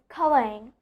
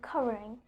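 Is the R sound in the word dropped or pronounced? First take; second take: dropped; pronounced. First: The R sound in the middle is dropped. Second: The R sound in the middle is pronounced. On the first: The speaker calls it wrong. "I'm not I'm not telling it as covering" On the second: The speaker calls it right. "Instead I'm telling covering"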